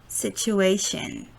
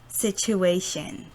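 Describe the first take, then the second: No difference in how they are said.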